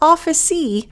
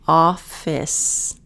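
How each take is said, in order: First: An extra vowel sound follows the final consonant. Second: The word ends cleanly on the final consonant. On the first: The speaker calls it wrong. "Not office-y" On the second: The speaker calls it right.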